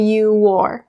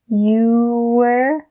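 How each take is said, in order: First: The 'or' is fully pronounced and clear. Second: The 'or' is reduced and linked to 'you'. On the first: The speaker calls it wrong. "instead of you wore ... making that or sound really clear" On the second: The speaker calls it right. "how I said it is, you were"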